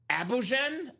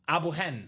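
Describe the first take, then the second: First: The name is said with a J sound. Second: The name is said with an H sound. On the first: The speaker calls it wrong. "correct me if I'm saying this wrong" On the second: The speaker calls it right. "he said the J is pronounced like an H"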